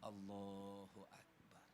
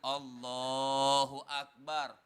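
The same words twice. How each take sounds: First: It is said quietly. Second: It is said loudly.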